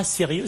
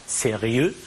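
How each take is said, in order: First: Said in the usual way. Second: "sérieux" with its ending split into ri-eux; diaeresis. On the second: Shown as a demonstration. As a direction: give "sérieux" three syllables, sé-ri-eux. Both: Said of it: "une diérèse ici".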